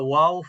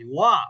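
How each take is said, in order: First: The syllable ends with an added o sound. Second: The syllable ends on a plain a vowel. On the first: The speaker calls it wrong. "আপনারা কেউ কেউ এইভাবে বলছেন" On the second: The speaker calls it right. "ওয়া হয়।"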